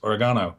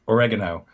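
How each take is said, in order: First: It is said with a British pronunciation. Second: It is said with an American pronunciation. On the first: "Over here, it's oregano" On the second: "In America, herb is, you know, like oregano"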